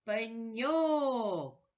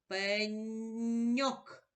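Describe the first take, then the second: First: Пеньок with the stress on the last syllable, ок; пеньок, second syllable ок held longer and louder; stressed word. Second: Пеньок pulled apart slowly, sound by sound; пеньок, a slow rising sounding-out; drawn-out word. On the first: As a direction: stretch and lift the final ок in пеньок. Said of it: "Давай поставимо наголос у слові пеньок". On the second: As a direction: stretch пеньок so each sound is heard. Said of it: "Назви послідовно звуки". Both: Shown as a demonstration.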